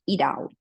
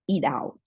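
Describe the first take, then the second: First: It has an American accent with a flapped T. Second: The same.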